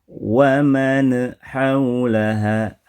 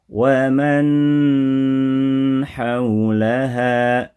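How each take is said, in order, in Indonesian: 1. Bunyi sengau diberi gema memantul. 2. Bunyi sengau dipanjangkan terlalu lama. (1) "ada pantulan" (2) "terlalu lama prakteknya"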